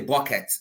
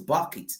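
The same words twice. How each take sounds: First: It is said in a Nigerian accent. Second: It is said in an English accent.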